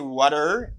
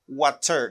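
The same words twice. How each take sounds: First: It is said in an American accent. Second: It is said in a British accent. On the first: "Americans say water" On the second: "British and British accent they say water"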